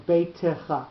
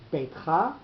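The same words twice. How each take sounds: First: "beitecha" with a sounded vowel after the t; three-syllable reading. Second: "beitcha" said as two syllables, no vowel after the t; two-syllable reading. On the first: Teacher shows the other reading, "beitecha" in three syllables. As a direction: split "beitecha" into bei-te-cha. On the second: Teacher shows the first reading, "beitcha" in two syllables. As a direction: run "beitcha" together as beit-cha. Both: Shown as a demonstration. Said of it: "two ways of reading it".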